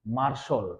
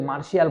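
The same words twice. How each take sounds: First: "মার্শাল" as two syllables, mar-shol; correct pronunciation. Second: "মার্শিয়াল" as mar-shi-al; wrong pronunciation. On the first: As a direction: end "মার্শাল" in a rounded shol. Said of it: "ওরা কি বলছে?". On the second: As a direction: give "মার্শিয়াল" a two-syllable shi-al ending. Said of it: "ওরা কিন্তু মার্শিয়াল বলে না". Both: Shown as a demonstration.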